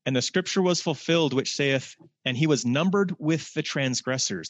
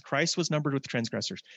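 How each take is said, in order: First: Higher, formal scripture reading. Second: Said in the usual way. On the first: Acted. Preacher reading Mark to the congregation, formal and solemn. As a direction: read it as a proclamation. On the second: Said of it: "That's Christ".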